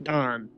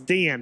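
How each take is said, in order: First: The name is said as Don. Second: The name is said as Dan. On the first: The speaker calls it wrong. "not Don" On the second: The speaker calls it right. "I have to remember it's Dan"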